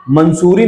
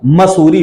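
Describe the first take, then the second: First: मंसूरी with an added n, "man-soo-ree"; मंसूरी starting with "man"; wrong pronunciation. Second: मसूरी without any n, "ma-soo-ree"; मसूरी starting with open "ma"; correct pronunciation. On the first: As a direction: sound an n before the s in मंसूरी. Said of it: "मंसूरी नहीं होता". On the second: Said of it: "मसूरी होता है". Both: Shown as a demonstration.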